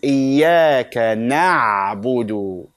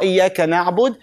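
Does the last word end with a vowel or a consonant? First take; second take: vowel; consonant. First: The last word ends with an added u vowel. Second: The last word ends on a bare d sound. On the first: The speaker calls it right. "There is dal and there is what? Dhamma" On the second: The speaker calls it wrong. "It's not iyaka na'bud"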